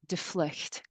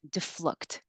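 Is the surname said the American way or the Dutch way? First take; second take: Dutch; American. First: The name is said with a Dutch pronunciation. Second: The name is said with an American pronunciation. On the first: "if you're Dutch, you speak Dutch... It's pronounced de vlucht" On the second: "here in America, uh most people pronounce it deflucht. So the V sounds like an F"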